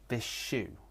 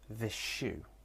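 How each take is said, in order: Both takes have the same delivery.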